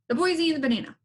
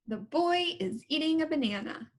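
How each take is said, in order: First: It is said too fast. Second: It is said at a moderate pace.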